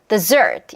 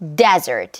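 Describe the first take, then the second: First: The stress is on the second syllable. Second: The stress is on the first syllable. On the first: It means a sweet course after a meal. "the da, 요 리듬에 맞추면 dessert" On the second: It means a dry sandy region. "data, 요 리듬에 맞추면 desert 이거고"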